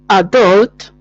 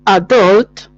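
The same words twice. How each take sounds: First: The stress is on the second syllable. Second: The same.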